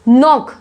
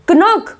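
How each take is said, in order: First: The k is silent; it starts with n. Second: A k sound is pronounced before the n. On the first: The speaker calls it right. "इसका right pronunciation है नॉक" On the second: The speaker calls it wrong. "कनॉक बोलोगे क्या"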